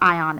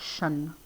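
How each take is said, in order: First: The ending is said as two syllables, eye-on. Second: The ending is said as one syllable, shun. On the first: The speaker calls it wrong. "It's not ion" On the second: The speaker calls it right. "it's shun"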